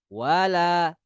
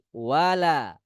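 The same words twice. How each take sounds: First: The L is pronounced thin and light. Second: The same.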